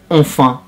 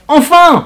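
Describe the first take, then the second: First: Said in the usual way. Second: Enfin yelped high and loud; exasperated enfin. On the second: Real, not acted. Reviewer finally getting what he wanted, loud "Enfin". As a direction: blurt out "Enfin" in relief.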